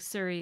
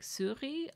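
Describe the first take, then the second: First: It is said with an English pronunciation. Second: It is said with a French pronunciation. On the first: "Surrey is what people call it" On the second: "it's actually pronounced more like souris"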